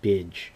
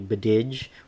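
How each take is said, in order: First: The name has one syllable ending in a soft 'dj'. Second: The name has two syllables ending in a soft 'dj'. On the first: The speaker calls it right. "properly pronounced Bidge" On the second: The speaker calls it wrong. "I thought it, it was originally Bididge or Bidig"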